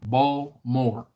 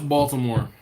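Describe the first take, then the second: First: "Baltimore" said slowly as BALL-MORE, no T; two-syllable local "Baltimore", ball-more; local pronunciation. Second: "Baltimore" in three syllables with a clear T, BALL-tih-more; non-local "Baltimore", T fully pronounced. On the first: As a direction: drop the T and middle syllable of "Baltimore". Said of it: "the way Kirk says it". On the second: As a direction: sound the T in "Baltimore". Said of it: "I pronounce the T in Baltimore". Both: Shown as a demonstration.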